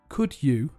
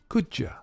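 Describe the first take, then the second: First: The word 'you' is said in full. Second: The word 'you' is reduced to 'ya'.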